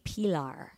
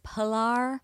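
First: The name is said in a guttural Spanish way. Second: The name is said in a plain English way. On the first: This is the name's real pronunciation. "but it's really Pilar" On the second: This is the easier version given to other people. "So I would tell people it was Pilar"

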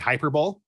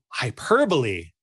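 First: It is pronounced the way it is spelled. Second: It is pronounced the standard way. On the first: The speaker had only read the word, never heard it. The speaker calls it wrong. "when I used to say hyperbole" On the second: Others correct the speaker's pronunciation. The speaker calls it right. "And people like, oh, hyperbole"

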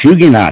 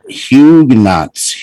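First: The word ends without any S sound. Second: The word ends with an audible S sound. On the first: The speaker calls it right. "take the S off" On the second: The speaker calls it wrong. "Where's the S coming from?"

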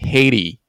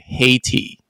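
First: The middle T is softened into another sound. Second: The middle T is pronounced clearly. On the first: This is a faster American pronunciation. "那个T 会变成有点像的声音Haiti" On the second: This is the standard dictionary pronunciation. "你会听到的是Haiti"

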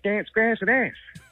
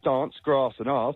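First: The A vowels imitate the listeners' accent. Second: The A vowels follow the speaker's own accent. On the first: This is how the listeners' community says it. "You guys say" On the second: This is how the speaker's own community says it. "We say"

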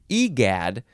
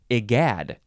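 First: The first vowel is not an 'eye' sound. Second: The first vowel is an 'eye' sound. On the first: The speaker calls it wrong. "I would want to say egad" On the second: The speaker calls it right. "it says it's an I sound at the beginning"

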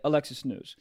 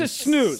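First: It is said quietly and calmly. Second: It is said loudly and angrily.

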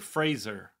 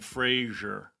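First: The name rhymes with laser. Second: The name does not rhyme with laser. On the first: The speaker calls it right. "Like Laser" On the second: The speaker calls it wrong. "We've both been saying Fraser"

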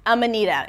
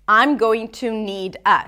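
First: The words are squeezed together into a reduced form. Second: Each word is pronounced fully and separately.

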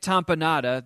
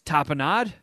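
First: It is said the way called Romanian. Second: It is said the way called French. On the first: "that is the Romanian way to say it" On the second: "the French is tapenade"

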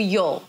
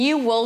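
First: The two words are merged into one syllable. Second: Both words are pronounced fully and separately. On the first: "reduce it to a you'll" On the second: "she didn't reduce it to a you'll"

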